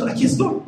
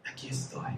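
First: Higher, rising reply at full voice; clear, raised-pitch answer; voiced-out answer. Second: Barely audible breath of a reply; hushed, acted obedience; submissive whispered answer. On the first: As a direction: say it up high with a lift at the end. Repeats answer aloud, higher. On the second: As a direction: whisper it in meek surrender. Voices Abraham's submissive answer.

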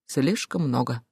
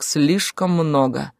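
First: Low, soft repetition; subdued echo. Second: Slow, heavy statement; grim. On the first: (тихо, подавленно) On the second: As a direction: draw it out grimly. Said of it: "мрачно ответил Клим". (мрачно, с расстановкой) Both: A narrator's reading.

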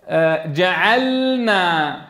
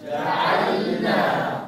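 First: جعلنا slow with a clear still lam; teacher leading recitation; slow model. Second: جعلنا whispered very slowly; whispered drill. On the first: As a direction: lead the class in جعلنا slowly. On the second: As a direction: breathe جعلنا softly as a drill. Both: Shown as a demonstration. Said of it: "قولوها معي".

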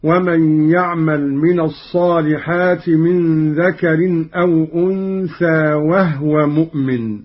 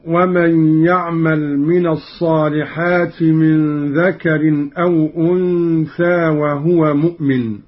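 First: وهو with the ha silent, said wahwa; Qalun reading. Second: Measured, chanted verse; Quranic recitation. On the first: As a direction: recite وهو as wahwa, no vowel on the ha. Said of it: "قرأ قالون بإسكان الهاء هكذا". (وهو بإسكان الهاء) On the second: (تلاوة مرتلة) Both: Shown as a demonstration.

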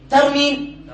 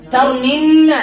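First: Said in the usual way. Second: "ترمين" with a long, doubled n and final a. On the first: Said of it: "كذلك هنا ترمي". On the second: Shown as a demonstration. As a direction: lean on the held n of "ترمين". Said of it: "سيحصل له ما حصل للصحيح". (نطق "ترمين" بنون مشددة مفتوحة)

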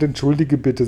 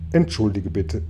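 First: Said in the usual way. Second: Lowered, composed apology; patient apology. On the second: A narrator's reading. James apologising once more to Regenwurm, patiently. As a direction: apologise with restraint after a deep breath. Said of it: "James holte langsam und tief Luft".

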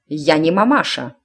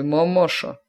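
First: Curt irritated retort; snapping. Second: Said in the usual way. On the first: A narrator's reading. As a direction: bark it back. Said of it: "рявкнула матушка". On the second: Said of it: "начала голова".

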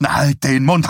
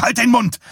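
First: Raised, higher angry command; angry interruption. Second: Much higher, loud outburst; furious shout. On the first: Husband cutting off his preaching wife, angry command. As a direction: cut in loudly and crossly. Husband cuts off wife's rebuke. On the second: Husband silencing his preaching wife, furious shout. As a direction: shout it at the top of the voice. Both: A narrator's reading.

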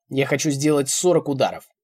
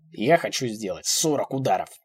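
First: Loud, forceful announcement; loud threat. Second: Deliberate repeat. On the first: Old man announces punishment, loud threat. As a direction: declare it forcefully. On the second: Old man repeats his threat, deliberate. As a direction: spell it out deliberately. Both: A narrator's reading.

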